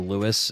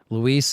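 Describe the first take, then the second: First: The name sounds like English Lewis, stressed first. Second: The name sounds like loo-EES, stressed at the end. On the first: This is how people in the original game said it. The speaker calls it wrong. "Lewis is like what I probably used to call him" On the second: This is the name's real pronunciation. The speaker calls it right. "Luis is more what I call him"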